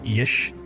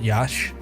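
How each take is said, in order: First: The first syllable has an 'ih' vowel. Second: The first syllable has an 'ah' vowel. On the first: The speaker calls it right. "it's supposed to be like Yish" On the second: The speaker calls it wrong. "not Yash"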